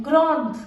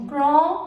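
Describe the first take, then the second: First: "grande" with sounded final d; feminine pronunciation. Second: "grand" with silent final d; masculine pronunciation. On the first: Teacher modelling the feminine form, "grande" with final d. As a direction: close "grande" on its consonant, falling. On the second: Teacher modelling the masculine form, "grand" without final d. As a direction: end "grand" on a nasal vowel. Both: Shown as a demonstration. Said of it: "ई को add करना है".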